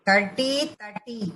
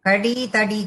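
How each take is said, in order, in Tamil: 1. இரண்டாவது 't' ஒலி அழுத்தமாகச் சொல்லப்படுகிறது. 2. இரண்டாவது 't' ஒலி மென்மையாகவும் லேசாகவும் சொல்லப்படுகிறது. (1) "டாவை நல்லா அழுத்தி சொல்லணும்" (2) "கடி தடி கிடையாது"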